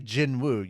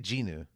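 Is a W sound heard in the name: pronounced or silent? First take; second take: pronounced; silent. First: The W sound is clearly pronounced. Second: The W sound is left out. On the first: The speaker calls it wrong. "You don't say Jinwoo" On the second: The speaker calls it right. "The W is silent. You say Jinu"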